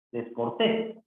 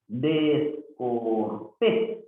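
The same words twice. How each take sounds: First: Said in the usual way. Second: "Descortés" very slowly, pausing between syllables. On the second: Shown as a demonstration. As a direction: stretch out "Descortés", rising on the last syllable. Teacher sounds out word for accent. (sílaba por sílaba, muy lento)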